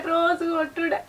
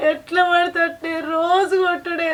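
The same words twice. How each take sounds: First: Much softer, crying on రోజు కొట్టుడే; wife repeating the daily beatings, sobbing and quiet. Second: Slow, dragged-out lament, stress on రోజు; wife telling elders of daily beatings, slowly; slow bitter complaint. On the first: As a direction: let the repeat collapse into a sob. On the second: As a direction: draw the words out with hurt. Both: Acted.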